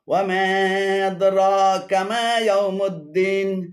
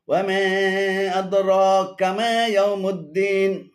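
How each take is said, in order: Both takes have the same delivery.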